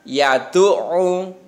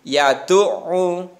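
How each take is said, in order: Both takes have the same delivery.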